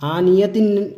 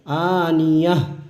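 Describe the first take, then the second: First: The word ends with a full 'tin' syllable. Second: The word ends with a silent-stopped 'h' sound. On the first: The speaker calls it wrong. "आनियतिन करके हम सांस नहीं तोड़ेंगे" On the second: The speaker calls it right. "आनियह करके हम सांस तोड़ेंगे"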